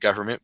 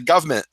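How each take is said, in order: First: The word is said in an American accent. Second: The word is said in a British accent. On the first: "At least I say government. Growing up in Chicago" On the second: "a British say, person will say government"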